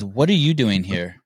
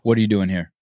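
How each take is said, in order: First: It is said in a mildly serious tone. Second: It is said in a very serious tone.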